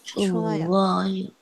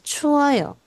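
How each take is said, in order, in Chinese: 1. 分开念，中间有停顿。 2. 快速念，连在一起。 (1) "chuoyo 是我特意把它分开念" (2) "要念快一点的时候就是chuoyo"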